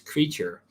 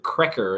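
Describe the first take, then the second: First: The name sounds like the word creature. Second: The name sounds like the word cracker. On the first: The speaker calls it right. "but it's Creature" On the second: The speaker calls it wrong. "I pronounced it Cracker in the video"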